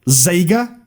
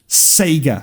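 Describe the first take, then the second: First: The word begins with a buzzing z sound. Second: The word begins with a hissing s sound. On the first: "It does sound like a Z" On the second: "with a Z or with an S?"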